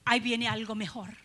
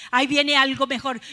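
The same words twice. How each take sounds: First: Said in the usual way. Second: "Ahí viene algo mejor" declared much louder; proclaiming. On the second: Shown as a demonstration. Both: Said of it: "puedes pensar tú".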